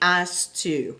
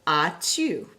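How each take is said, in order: First: The S of 'as' is pronounced. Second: The S of 'as' is silent. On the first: The speaker calls it wrong. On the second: The speaker calls it right.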